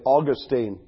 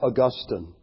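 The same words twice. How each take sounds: First: The name is said the common, everyday way. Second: The name is said the educated, scholarly way. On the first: This is how ordinary people say the name. "Common people like us, we say Augustine" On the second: This is how scholars say the name. "The educated philosophers and church historians say Augustine"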